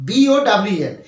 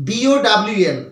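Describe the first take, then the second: Both takes have the same delivery.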